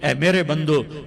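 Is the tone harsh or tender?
harsh. It is said in a plain, hard tone. The speaker calls it wrong.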